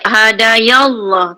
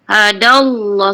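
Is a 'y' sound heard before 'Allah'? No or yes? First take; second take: yes; no. First: A 'y' sound is inserted before 'Allah'. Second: It runs straight into 'Allah' with no 'y'. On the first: The speaker calls it wrong. "jangan baca hadayallah, tak ada" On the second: The speaker calls it right. "terus terus kepada kalimah Allah"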